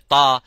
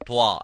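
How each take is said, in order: First: The letter is said plainly without lip rounding. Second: The letter is said with rounded lips, w-like. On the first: The speaker calls it right. "You don't have to move your lips" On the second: The speaker calls it wrong. "by using your lips to pronounce the ta, uh, you damaging the makhraj"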